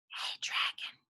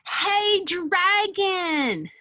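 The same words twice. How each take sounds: First: It is said in a soft whisper. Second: It is shouted very loudly.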